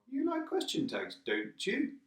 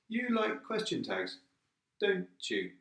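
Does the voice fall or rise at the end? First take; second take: rise; fall. First: The voice rises at the end. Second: The voice falls at the end.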